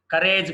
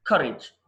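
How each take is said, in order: First: కరేజ్ with a long "rayj"; wrong pronunciation. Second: కరేజ్ with a short "rij"; correct pronunciation. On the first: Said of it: "కాదు". (కరేజ్ చివర "రేజ్" అని తప్పుగా) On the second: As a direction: say కరేజ్ as "KUR-ij". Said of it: "కరేజ్ కాదు". (కరేజ్ చివర "రిజ్" అని) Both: Shown as a demonstration.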